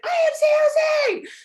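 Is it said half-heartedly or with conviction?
conviction. It is said firmly, with full conviction.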